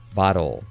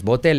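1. El final tiene una L suave y controlada, al estilo inglés. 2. El final suena como el 'tel' español con una L fuerte. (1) "es bottle" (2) "No es botel"

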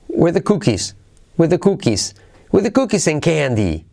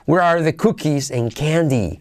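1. "Where are" se dice rápido y reducido. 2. "Where are" se dice completo, claramente.

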